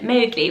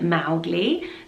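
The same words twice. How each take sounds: First: The first syllable does not rhyme with cow. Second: The first syllable rhymes with cow. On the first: "we call it Mowgli, which I think is cuter" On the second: "So Mao as rhyming with cow"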